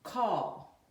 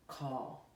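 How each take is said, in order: First: The word Call called out louder; clear dictation. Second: Said in the usual way. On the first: Shown as a demonstration. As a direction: dictate Call for the class to spell. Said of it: "I'm going to say it". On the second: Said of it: "we're gonna say it together".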